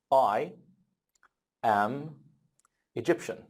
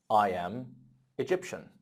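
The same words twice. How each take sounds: First: Word-by-word model. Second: Said in the usual way. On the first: Shown as a demonstration. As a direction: say it one word at a time for learners. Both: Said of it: "how can I talk about my nationality".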